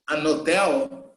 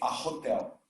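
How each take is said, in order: First: The h at the start of hotel is silent. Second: The h at the start of hotel is pronounced. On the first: This is how some dialects of English say it. "he's not pronouncing the H" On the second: This is how the speaker personally says it. "So I myself say a hotel"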